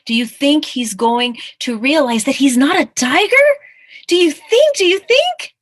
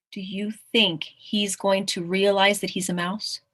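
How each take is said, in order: First: Loud question climbing ever higher; mounting excitement. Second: Said in the usual way. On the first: Real, not acted. Reader urging children to guess the ending, increasingly loud and excited. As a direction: build to a high, eager repeat.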